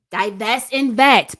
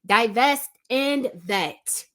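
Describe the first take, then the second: First: "Divest and vet" said again much louder, punching "vet"; loud emphatic repeat. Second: "Divest and vet" spaced out slowly, each word weighted; slow it right down so every word lands; slow deliberate emphasis. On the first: Repeating her advice to viewers, a loud punched "Divest and vet". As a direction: hammer "vet" home the second time. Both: Shown as a demonstration. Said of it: "I'll say it again because I can't emphasize this enough".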